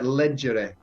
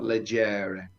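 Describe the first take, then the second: First: The stress is on the first syllable. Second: The stress is on the second syllable. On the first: The speaker calls it right. "it's on the first syllable" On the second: The speaker calls it wrong. "the stress is not on the penultimate syllable"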